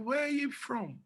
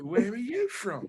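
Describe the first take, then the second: First: Higher, put-on curious voice; lightly voiced self asking a stranger; mock friendly question. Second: Repeating it with a laugh in the voice; amused mock repeat. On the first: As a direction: ask it in a bright put-on voice. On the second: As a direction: ask again through a chuckle. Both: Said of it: "ability to mimic people's talking".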